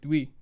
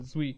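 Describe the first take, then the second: First: The name begins with a D sound. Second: The name begins with a Z sound. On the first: The speaker calls it wrong. "it looks like Dui" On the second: The speaker calls it right. "it's with a Z at the beginning uh, under Vietnamese pronunciation"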